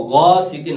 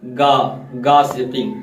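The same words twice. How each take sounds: First: गासिकिन with a thick, throaty gh; full ghain. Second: गासिकिन with a thin hard g, like गाफ; thin wrong ghain. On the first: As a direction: open गासिकिन on a heavy fricative gh from the throat. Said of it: "गैन को अगर पुर पढ़ रहे हैं". (गासिकिन का गैन पुर, मोटा) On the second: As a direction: demonstrate the mistake, plain g in गासिकिन. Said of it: "अगर बारीक पढ़ देंगे तो". (गासिकिन में बारीक गाफ जैसी आवाज़) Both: Shown as a demonstration.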